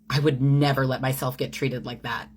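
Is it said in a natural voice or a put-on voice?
natural. It is read in a natural speaking voice.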